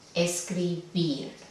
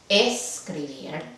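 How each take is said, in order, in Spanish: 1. El acento está en la última sílaba. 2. El acento está en la primera sílaba. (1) "Ahí va el acento, la sílaba tónica"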